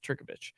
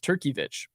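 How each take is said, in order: First: The middle syllable has an o sound. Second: The middle syllable has an ee sound. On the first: The speaker calls it right. "It's Turkovich" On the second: The speaker calls it wrong. "that I in there made me think it was Turkeyvich, but it's not"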